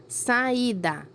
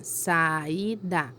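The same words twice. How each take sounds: First: Said in the usual way. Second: "Saída" in three separate syllables, sa-í-da; split into syllables. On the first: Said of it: "Primeira lá". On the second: Shown as a demonstration. Teacher showing pupils how to separate the word, "Saída" syllable by syllable. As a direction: softly break "Saída" apart, sa, í, da. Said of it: "Então, vou separar".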